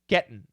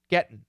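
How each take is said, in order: First: The T is stopped before a nasal ending. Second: The T is stopped before a nasal ending.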